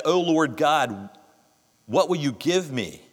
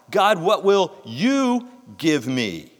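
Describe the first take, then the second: First: Said in the usual way. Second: Slow, with "you" pressed hard; "you" carries the question, drawn out; stress on you. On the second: Shown as a demonstration. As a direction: linger on "you" in "what will you give me". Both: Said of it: "What's the emphasis there?".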